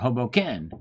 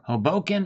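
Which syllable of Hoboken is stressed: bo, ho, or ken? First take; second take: ken; bo. First: The stress is on the third syllable. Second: The stress is on the second syllable. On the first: "or the ken" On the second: "or the bo"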